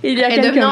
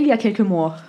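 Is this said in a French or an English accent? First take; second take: English; French. First: It is said in an English-speaker's accent. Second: It is said in a plain French accent.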